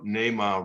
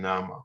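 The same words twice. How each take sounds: First: The first vowel is a long A sound. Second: The first vowel is a soft, short sound. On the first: The speaker calls it right. "they pronounce it with a long A" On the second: The speaker calls it wrong. "not a soft vowel sound"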